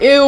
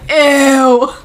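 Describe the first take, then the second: First: Said in the usual way. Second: A long, exaggerated EW of disgust; drawn-out ew. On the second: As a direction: stretch EW out long. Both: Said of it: "with four W's".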